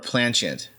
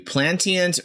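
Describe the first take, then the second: First: The middle consonant is a sh sound. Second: The middle consonant is a plain t sound.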